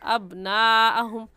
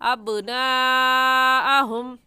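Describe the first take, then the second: First: The b sound stops dead without any bounce. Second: The b sound ends with a short echoing bounce. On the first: The speaker calls it wrong. "गलत है ... आवाज़ गई और अंदर जाकर ख़त्म हो गई" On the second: The speaker calls it right. "सही है आवाज़ पलट कर आए"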